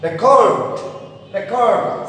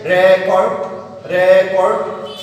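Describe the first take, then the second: First: "record" as re-CORD, pitch raised then falling on CORD; weak re, strong CORD in "record"; stress on second syllable. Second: RE in "Record" hit loud and held; "Record" with a strong RE and weaker cord; stress on first syllable. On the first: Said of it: "On the other hand". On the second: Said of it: "on which stress should not be". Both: Shown as a demonstration.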